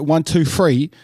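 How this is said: Three begins with an f sound. This is how people in England actually say it. "with the F rather than the T H"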